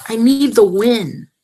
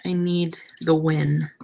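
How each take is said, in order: First: NEED and WIN punched louder; insist, hitting NEED hard; emphatic plea. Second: Said in the usual way. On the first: Real, not acted. Crafter wanting the flinger to work, emphatic on NEED. Repeats it emphatically after quiet take.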